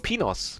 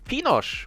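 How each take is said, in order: First: The name ends with an s sound. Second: The name ends with an sh sound.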